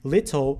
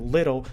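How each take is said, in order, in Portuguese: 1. A consoante do meio é um T claro. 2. A consoante do meio é um flap rápido.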